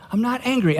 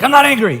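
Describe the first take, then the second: First: Softer, higher-pitched protest, held in check; retold careful, controlled denial; restrained denial. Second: Higher, punched-out mock-angry protest; hammed-up flash of anger; mock angry denial. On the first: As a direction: deny it quietly, keeping anger out. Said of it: "I tried not to do the angry thing". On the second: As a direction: imitate an angry denial, quick and forceful. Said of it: "the angry thing, like".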